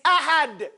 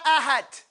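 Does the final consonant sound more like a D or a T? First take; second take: D; T. First: The final consonant sounds like a D. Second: The final consonant sounds like a T. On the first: The speaker calls it right. "It's ahad" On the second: The speaker calls it wrong. "If you get on that teeth, it's going to sound like a T. It's not ahad"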